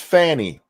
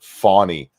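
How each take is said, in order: First: The first vowel is like in 'cat'. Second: The first vowel is an 'aw' sound. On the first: This is the name's usual pronunciation. The speaker calls it right. "It's Fanny. We all know it's Fanny" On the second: Some people say the name this way. The speaker calls it wrong. "people are pronouncing it Fawny"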